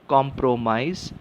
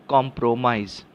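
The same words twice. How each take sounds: No difference in how they are said.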